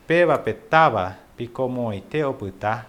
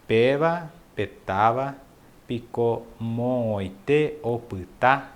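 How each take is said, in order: First: Said in the usual way. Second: Slow, syllable by syllable, with a pause mid-phrase; slower. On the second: Shown as a demonstration. Teacher slows the Guarani phrase so students can follow, very slow. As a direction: break "Pela petava" from "picou moite oputá" and stretch every syllable. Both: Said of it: "Ó, eu vou falar mais devagar".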